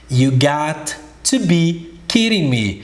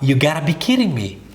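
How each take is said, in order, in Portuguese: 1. É dita devagar, com cada palavra clara. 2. É dita rápido, com as palavras emendadas. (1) "Devagar ficaria assim" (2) "se você for falar rápido"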